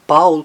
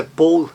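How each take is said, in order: First: Paul the German way, "powl"; German pronunciation. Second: Paul the English way, "pol"; English pronunciation. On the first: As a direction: say Paul with an open "ow" glide. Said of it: "em alemão não". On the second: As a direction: say Paul with a rounded "o", no glide. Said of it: "que em inglês é Paul". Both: Shown as a demonstration.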